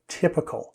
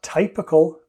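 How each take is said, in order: First: The first vowel sounds like the word tip. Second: The first vowel sounds like the word type. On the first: The speaker calls it right. "the Y, has a different sound" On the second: The speaker calls it wrong. "It's not typical"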